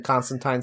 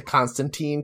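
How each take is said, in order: First: Constantine with last syllable rhyming with "sign"; Constantine ending in -tine. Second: Constantine with last syllable rhyming with "seen"; Constantine ending in -teen. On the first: Host cites the version he dislikes, Constantine ending in -tine. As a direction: say Constantine as "CON-stan-tyne". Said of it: "I think Constantine sounds stupid". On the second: Host gives his instinctive version, Constantine ending in -teen. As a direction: say Constantine as "CON-stan-teen". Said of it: "I think they say Constantine. I, my instinct is to always translate".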